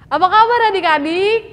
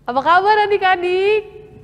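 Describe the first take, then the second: First: It is said with lots of energy. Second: It is said with little energy.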